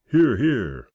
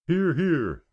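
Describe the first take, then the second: First: Higher, louder cue to the crowd; feed them their line; prompting cheer. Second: Much higher crowd call; laughing call. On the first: Roy prompting the scouts to cheer, louder cue. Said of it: "Now you're supposed to say". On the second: The scouts answering Roy's cue, high playful call. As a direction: answer back in chorus. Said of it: "they called laughingly". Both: A narrator's reading.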